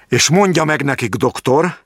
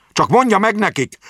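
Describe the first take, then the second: First: High, firm start of a threat; stern warning. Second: Raised voice. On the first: Jáki warning the doctor before raising his voice. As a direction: point the finger and warn him. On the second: Jáki repeating his message for the doctor, voice raised. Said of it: "emelte fel a hangját". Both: A narrator's reading.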